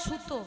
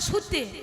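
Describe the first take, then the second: First: The word ends in an o vowel. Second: The word ends in an e vowel. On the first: This is the Bardhaman regional form. "আমাদের বর্ধমানে কি বলে?" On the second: This is the Murshidabad regional form. "আর মুর্শিদাবাদে"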